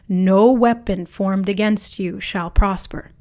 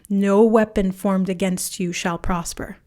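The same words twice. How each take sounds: First: It is said with strong, intense power. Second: It is said in a light, casual way.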